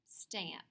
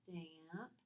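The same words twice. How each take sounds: First: The word is said quickly as one unit. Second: The word is drawn out slowly. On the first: "fast like a word" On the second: "Say it slowly"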